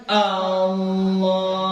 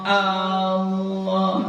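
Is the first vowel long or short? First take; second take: long; long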